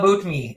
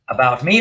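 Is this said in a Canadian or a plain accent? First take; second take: Canadian; plain. First: It is said in a Canadian accent. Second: It is said in a plain, standard accent.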